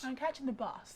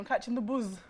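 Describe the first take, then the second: First: The last word ends with a hissing s sound. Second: The last word ends with a buzzing z sound.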